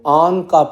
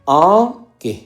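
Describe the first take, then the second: First: The second word ends in a 'ka' sound. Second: The second word ends in a 'ke' sound. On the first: The speaker calls it wrong. "आन का पढ़ते हैं, इसको, ये गलत है" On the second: The speaker calls it right. "के यहाँ पर हरफे बयां है"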